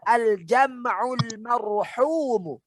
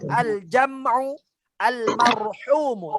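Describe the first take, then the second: First: The two words are run together into one. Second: The two words are said separately, not linked. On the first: The speaker calls it right. "tapi dibaca" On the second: The speaker calls it wrong.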